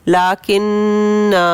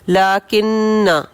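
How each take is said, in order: First: The final vowel is held for two counts. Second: The final vowel is short. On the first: The reciter stops on this word. "वक्फ की सूरत में लाकिन्ना हरूफ मद्दा टू counts" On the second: The word is read while continuing the recitation. "पढ़ने की सूरत में"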